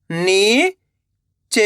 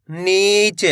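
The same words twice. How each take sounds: First: "नीच" split with a pause; long rising नी, pause, then च in "नीच"; letter by letter. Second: Said in the usual way. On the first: Shown as a demonstration. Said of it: "एक एक अक्षर का उच्चारण". ("नीच" को तोड़कर, नी... च) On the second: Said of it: "तो मिलके बन जाएगा".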